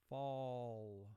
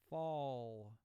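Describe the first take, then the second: The two takes are said the same way.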